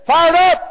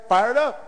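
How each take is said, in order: First: Loud, high imitated shout; sudden call-out. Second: Said in the usual way. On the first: Unseen woman calling out from the back of the room, loud chant. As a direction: belt it out like a chant leader. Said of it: "we hear this voice saying". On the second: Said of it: "they all say".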